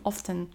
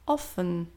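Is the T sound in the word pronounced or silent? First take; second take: pronounced; silent. First: The T sound is clearly pronounced. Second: The T sound is silent.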